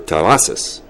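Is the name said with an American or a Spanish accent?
Spanish. The name is said with Spanish sounds, rolled R. "it was no longer Terrazas"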